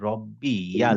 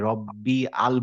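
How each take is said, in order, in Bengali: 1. 'y' ধ্বনি শব্দটিকে 'al' এর সাথে যুক্ত করে। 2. শব্দটি 'y' ধ্বনি ছাড়াই সরাসরি 'al' এ গিয়ে মেশে। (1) "আমাদের বলতে হবে রব্বি ইয়াল।" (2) "এইটা আমরা অনেকেই মিস করি যে রব্বি আল বলে ফেলি।"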